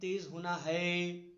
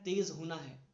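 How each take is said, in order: First: The word है is stressed. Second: The word तेज is stressed. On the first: The speaker calls it wrong. "अब है पे मैं ये नहीं कह रहा हूं" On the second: The speaker calls it right. "जैसे मैंने कहा तेज होना है"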